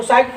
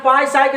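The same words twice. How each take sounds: First: "साइक" said as "saik", starting straight on the S; silent P in Psyche. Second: "पांच साइक" said as "p-saik", P voiced before the S; P sounded in Psyche. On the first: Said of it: "इसको साइक पढ़ेंगे". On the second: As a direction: wrongly pronounce the silent P in "पांच साइक", as "p-saik". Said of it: "नहीं पढ़ेंगे". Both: Shown as a demonstration.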